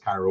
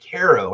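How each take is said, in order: First: It sounds like the Egyptian city Cairo. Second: It sounds like the syrup brand Karo. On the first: This matches the pyramids on the town sign. The speaker calls it right. "I know it's Cairo. I'm sorry, it's Cairo" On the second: This is how the local people say it. The speaker calls it wrong. "everybody pronounces it Caro, ... Caro is a syrup, K A R O"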